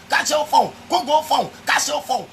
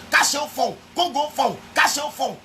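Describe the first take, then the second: No difference in how they are said.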